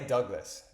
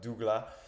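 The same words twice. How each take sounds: First: The name is pronounced with an English accent. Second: The name is pronounced with a French accent. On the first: "En anglais" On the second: "en français, on le prononce"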